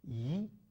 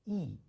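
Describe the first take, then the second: First: The syllable yi is said with a rising tone. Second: The syllable yi is said with a falling tone. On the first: "you have to pronounce it with a second tone" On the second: "the E will be pronounced with a fourth tone"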